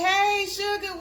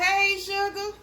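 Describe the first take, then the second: First: Said in the usual way. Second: High bright "Hey, Sugar"; cheerful demo hello; sample greeting. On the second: Shown as a demonstration. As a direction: show them how to greet you. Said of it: "go on over there and say".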